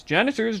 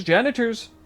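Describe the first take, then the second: First: Loud call for the janitors. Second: High, louder shout. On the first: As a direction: call out across the room. Calling out for janitors. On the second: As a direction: yell it out, more urgent. Calling out again, louder. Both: Acted.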